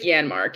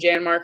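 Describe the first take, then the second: First: The name begins with a Y sound. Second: The name begins with a J sound. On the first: The speaker calls it right. "It's like Yanmark, yeah" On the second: The speaker calls it wrong. "I always say it wrong. I just want to say the J"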